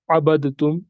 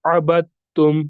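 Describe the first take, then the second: First: "अबदतुम" with the द sounded; "अबदतुम" with an audible d before the t; wrong pronunciation. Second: "अबदतुम" with the द silent, held double t; careful recited "अबदतुम", ba joined straight to ta; merged pronunciation. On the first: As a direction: say "अबदतुम" as "abad-tum", unmerged. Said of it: "ऐसे नहीं पढ़ना है". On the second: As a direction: say "अबदतुम" as "abat-tum". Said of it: "हम इस तरह पढ़ेंगे". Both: Shown as a demonstration.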